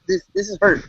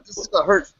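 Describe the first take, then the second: First: Mock wounded whine, pitched high; mock hurt. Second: Said in the usual way. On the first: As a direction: play the hurt friend, hammed up. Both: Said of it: "See, this is".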